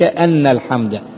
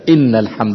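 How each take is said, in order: First: The first word begins with an 'a' vowel. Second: The first word begins with an 'i' vowel. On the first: It gives the reason for the preceding response. "أي لبيك لأن الحمد لك" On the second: It starts a new statement affirming that praise belongs to God. "إن تكون الهمزة مكسورة على الابتداء"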